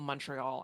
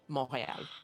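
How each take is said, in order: First: The name is said with English pronunciation. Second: The name is said with French pronunciation. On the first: The speaker is speaking English. "which we call Montreal" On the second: The speaker is speaking French. "Unless I'm speaking French, in which case I'll call it Montréal"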